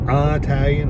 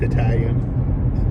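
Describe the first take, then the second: First: The first syllable is a stressed 'eye' sound. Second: The first syllable is a short, unstressed sound. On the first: This is a regional way of saying it. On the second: This is the usual way of saying it.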